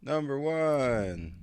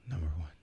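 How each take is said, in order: First: It is said with more enthusiasm. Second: It is said flatly, without enthusiasm.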